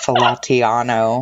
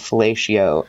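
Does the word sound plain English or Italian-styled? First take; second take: Italian-styled; plain English. First: It is said with an Italian-sounding flourish. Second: It is said in a plain English way. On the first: The speaker calls it wrong. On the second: The speaker calls it right.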